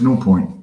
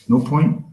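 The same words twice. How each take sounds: First: Said in the usual way. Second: "No point?" with a rise on "point"; questioning echo. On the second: Real, not acted. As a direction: check with the crowd, lifting "point" at the end. Same words echoed as a question.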